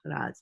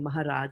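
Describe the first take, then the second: First: The middle consonant is a K sound. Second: The middle consonant is an H sound. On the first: "H is not there, so they'll say Ka like that" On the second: "instead of saying"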